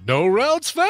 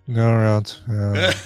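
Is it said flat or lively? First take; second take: lively; flat. First: It is said in a lively way. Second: It is said flat and deadpan.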